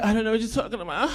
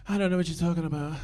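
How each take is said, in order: First: Fast, hushed denial with a rising end. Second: Fast, hushed innocent denial. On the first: [name] repeats the denial. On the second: Imitating [name]'s denial. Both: Retold or imitated.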